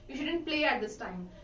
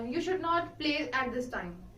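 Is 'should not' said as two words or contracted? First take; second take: contracted; two words. First: Should and not merge into one word, shouldn't. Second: Should and not are said as two separate words. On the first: "It sounds uh, it sounds fluent" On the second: "Instead of saying this"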